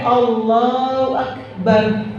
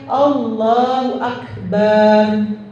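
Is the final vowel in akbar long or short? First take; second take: short; long. First: The vowel in akbar is kept short. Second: The vowel in akbar is drawn out long. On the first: God is the greatest. The speaker calls it right. "Tapi kalau pendek Allahu akbar, Allah maha besar" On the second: God is like a drum. The speaker calls it wrong. "Kalau ibu ucapnya Allahu akbar, itu Allah seperti bedug"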